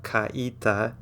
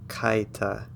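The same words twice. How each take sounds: First: Kaita wrongly split into ka-EE-ta; broken diphthong. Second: Kaita slowly as KAI-ta, two syllables; diphthong. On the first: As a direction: slowly separate the a and i of kaita into three syllables. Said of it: "It's not kaita". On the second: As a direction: glide a and i of kaita together like English eye. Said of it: "come together to make an I". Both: Shown as a demonstration.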